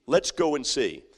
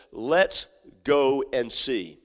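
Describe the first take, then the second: First: Said in the usual way. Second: Let's... go... and... see, savored; slow, drawn-out. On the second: Acted. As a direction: stretch each word slowly. Preacher repeats shepherds' words.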